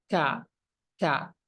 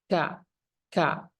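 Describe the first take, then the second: Both takes have the same delivery.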